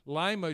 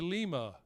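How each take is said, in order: First: It uses the local Ohio pronunciation. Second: It uses the usual expected pronunciation. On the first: The speaker calls it wrong. "the cities in Ohio are not pronounced the way they should be" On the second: The speaker calls it right. "should be"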